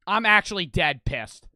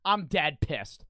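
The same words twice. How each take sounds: First: Loud, fed-up outburst; real anger. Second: Said in the usual way. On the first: Real, not acted. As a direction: blurt it out, genuinely pissed off.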